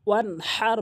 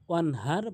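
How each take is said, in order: First: The h is deep and throaty. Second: The h is light and breathy. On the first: The speaker calls it right. "বড় হার ... বলতে হবে" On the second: The speaker calls it wrong. "ছোট হা ... বলা যাবে না"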